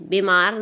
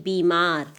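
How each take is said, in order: First: "बीमार" as bemaar, first vowel e; wrong e sound. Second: "बीमार" lower, as beemaar; correct long ee. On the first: Teacher showing the mistake, "बीमार" as bemaar. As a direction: swap the ई of "बीमार" for ए. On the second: Teacher correcting pupils, "बीमार" with long ee. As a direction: hold the first vowel of "बीमार" as ई. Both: Shown as a demonstration. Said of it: "बीमार नहीं".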